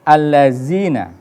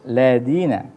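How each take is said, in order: First: The middle consonant is a buzzing z sound. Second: The middle consonant is a soft th sound. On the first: The speaker calls it wrong. "ada kekeliruan dalam pengucapan za itu" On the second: The speaker calls it right. "za itu tidak seperti itu, ladina ya, halus dia"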